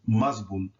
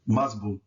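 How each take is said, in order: The two takes are said the same way.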